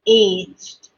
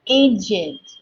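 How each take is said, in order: First: The -ed ending is not a separate syllable. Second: The -ed ending forms its own syllable. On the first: The speaker calls it wrong. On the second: The speaker calls it right.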